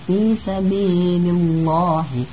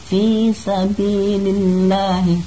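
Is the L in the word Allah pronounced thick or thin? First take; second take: thick; thin. First: The L of Allah is heavy and thick. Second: The L of Allah is light and thin. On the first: The speaker calls it wrong. "tidak dibaca" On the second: The speaker calls it right. "dibaca tarkik atau tipis"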